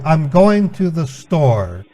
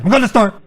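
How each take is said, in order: First: It is said slowly. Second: It is said fast.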